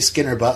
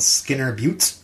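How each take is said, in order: First: The last word is said like 'butt'. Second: The last word is said like 'byoot'. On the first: The speaker calls it wrong. "I don't want to say it the other way" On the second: The speaker calls it right. "Is that how you pronounce it?"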